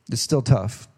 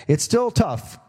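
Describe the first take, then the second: First: Said in the usual way. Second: Emphatic high. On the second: Acted. Repeated line, first pitched up.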